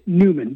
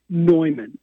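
First: The name is said the way it is spelled. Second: The name is said the commonly heard way. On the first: "So it's written Newman" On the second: "I've heard it pronounced most often Neumann"

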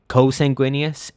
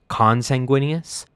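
First: The first syllable is said without an n. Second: The first syllable is said with an n. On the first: The speaker calls it wrong. "I have been consistently saying co-sanguineous instead of" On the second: The speaker calls it right. "instead of consanguineous"

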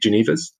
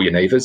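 First: The word is said with English pronunciation. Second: The word is said with Dutch pronunciation.

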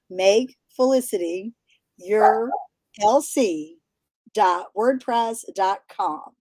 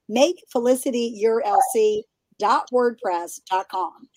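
First: It is said slowly. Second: It is said at a normal pace.

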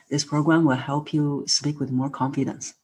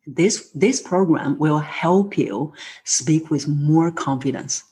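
First: No word in the sentence is stressed. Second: The words 'help' and 'confidence' are stressed. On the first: The speaker calls it wrong. "So instead of saying" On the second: The speaker calls it right. "we want to now have more voice come out on the word help and confidence"

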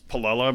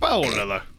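First: It has an American pronunciation, said normally. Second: It has an Italian pronunciation, said loudly. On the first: This is how it is said in the States. "But here in the States, it's Paolella" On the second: This is how it is said in Italy. "when I've been to Italy, they say Paolella. They kind of shout it too"

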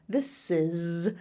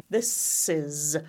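The two takes are said the same way.

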